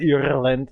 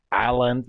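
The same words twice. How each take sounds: First: Ireland said EER-lund, with a clear r; the English player's pronunciation. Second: Ireland said EYE-lund, without the r; German pronunciation. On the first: Retold or imitated. Copying the English player's version, Ireland as EER-lund with a rolled-in r. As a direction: imitate Ireland the way they say it, EER-lund with the r sounded. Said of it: "You say Ireland". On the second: Shown as a demonstration. Explaining his own pronunciation to an English player, Ireland as EYE-lund. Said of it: "But I say Ireland".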